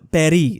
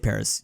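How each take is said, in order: First: It is pronounced with an affected foreign accent. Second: It is pronounced the plain English way. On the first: The speaker is showing off. The speaker calls it wrong. "I'm like a an American being like" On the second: The speaker is being unpretentious. The speaker calls it right. "Bro, just say Paris"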